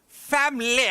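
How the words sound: It is said in a posh British accent.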